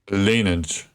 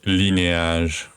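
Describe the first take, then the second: First: It is said with an American English pronunciation. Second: It is said with a French pronunciation. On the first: "That's how you say it in uh, American" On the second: "if I say that in French, is linéage"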